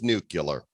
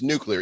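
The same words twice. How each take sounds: First: It is said with a 'cular' ending. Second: It is said with the standard 'clear' ending. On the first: The speaker calls it wrong. "never got it right. Always nuclear" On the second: The speaker calls it right. "come on, it's nuclear"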